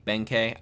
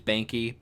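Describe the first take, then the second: First: Benkei ending in a "kay" sound; preferred pronunciation. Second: Benki ending in a "kee" sound; alternative pronunciation. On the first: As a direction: say Benkei with an "ay" at the end. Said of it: "I think it's Benkei". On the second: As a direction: say Benki with an "ee" at the end. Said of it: "I believe it is pronounced. Maybe it's Benki". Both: Shown as a demonstration.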